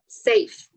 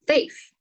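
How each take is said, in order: First: The word starts with an s sound. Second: The word starts with a sound other than s.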